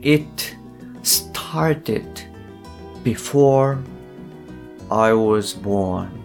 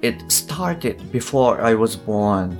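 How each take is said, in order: First: It is said slowly and carefully. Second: It is said at a faster, natural speed.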